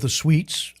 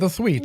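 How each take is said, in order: First: The first sound is a clear s. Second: The first sound is lisped like th. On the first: The family says its own name. "We're the Sweets" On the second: An official with a lisp records the name. "somebody at Ellis Island had a lisp"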